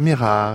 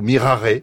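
First: It is said with a Corsican-style accent. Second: It is said Latin-style, pushing the final e. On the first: "à la Corse peut-être" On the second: "avec un accent latin qui n'existe pas, donc en forçant bien sur le « et »"

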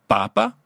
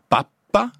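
First: The middle p sound is short. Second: The middle p sound is long. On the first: It means the Pope. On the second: It means boiled mush.

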